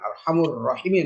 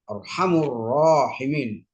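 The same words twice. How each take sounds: First: The vowel after 'r' in 'rahimin' is short. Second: The vowel after 'r' in 'rahimin' is long. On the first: The speaker calls it wrong. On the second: The speaker calls it right. "setiap rahimin pasti panjang"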